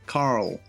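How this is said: It is said in an American accent. "you kind of got to roll the R and the L together for the American pronunciation"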